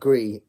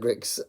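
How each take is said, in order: First: The name ends on a vowel, no ks sound. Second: The name ends with a ks sound. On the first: The speaker calls it wrong. "and not Gree, like I said in my original" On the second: The speaker calls it right.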